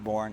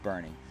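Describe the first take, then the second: First: The name is said as one syllable, like 'born'. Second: The name is said as two syllables, like 'bernie'. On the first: The speaker calls it wrong. "It's not Born" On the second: The speaker calls it right. "it's Bernie"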